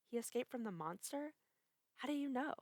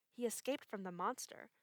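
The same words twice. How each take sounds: First: Higher, alarmed disbelief; surprised. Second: Dark, grave warning; ominous. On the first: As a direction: gasp it out as a question. Woman startled by the news. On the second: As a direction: say it like a bad omen. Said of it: "said the man in an ominous voice". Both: A narrator's reading.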